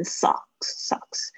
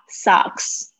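First: Socks whispered softly, a wrong vowel shown as a mistake; whispered wrong version. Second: Socks with an open ah vowel, said slowly; correct model. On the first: Teacher whispers the wrong socks as a warning. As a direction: breathe socks out as the mistake to avoid. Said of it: "不要念成socks". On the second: Teacher slowly models the right socks. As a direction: stretch the ah in socks. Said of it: "一个是啊，socks". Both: Shown as a demonstration.

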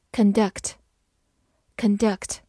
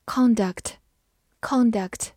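First: "Conduct" as con-DUCT, first vowel reduced; slow "Conduct", weak first syllable, stressed second. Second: "conduct" as CON-duct, full open first vowel; stress on first syllable. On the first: Teacher reads the verb conduct for learners, stressing the second syllable. Verb reading before noun reading. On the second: Teacher gives learners the noun conduct, stressing the first syllable. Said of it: "或者读作". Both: Shown as a demonstration.

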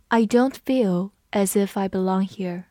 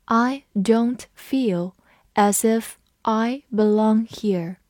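First: Said in the usual way. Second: Slow, careful reading of the sentence. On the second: Shown as a demonstration. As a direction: read it slowly, word by word. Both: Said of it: "我们慢慢读一遍".

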